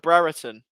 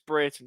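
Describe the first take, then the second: First: The name is said as Brereton. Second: The name is said as Brayton. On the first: This is the version people have always used. The speaker calls it wrong. "we always used to call him Brereton" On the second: This is the version the player himself uses. The speaker calls it right. "he then said it, it's Brayton"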